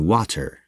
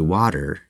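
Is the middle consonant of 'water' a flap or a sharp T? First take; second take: sharp T; flap. First: The middle sound is a sharp, crisp T. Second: The middle sound is a soft, D-like flap. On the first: The speaker calls it wrong. "as opposed to water" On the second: The speaker calls it right. "you are closer if you say water"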